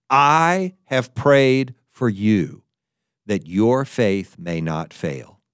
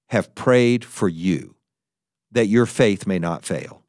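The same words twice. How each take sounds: First: "I have prayed for you" drawn out slowly, each word weighed; slow, weighty reading. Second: Said in the usual way. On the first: Shown as a demonstration. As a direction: lean on "I" and slow right down through "that your faith may not fail". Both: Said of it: "It is Jesus saying".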